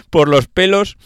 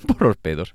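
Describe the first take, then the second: First: "pelos" said clearly with an l, higher, louder and slow; a careful, laughing "pelos" with a distinct l; laughing correction. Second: "pedos" said by mistake for pelos, laughing; a laughing slip, "pedos" where "pelos" should be; laughing slip of the tongue. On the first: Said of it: "pedo, pedo". (corrige riendo: "pelos" claro, con l, más alto y lento) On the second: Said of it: "¿estoy borracho o qué me pasa?". (risa, dice "pedos" por error en lugar de "pelos") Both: Real, not acted.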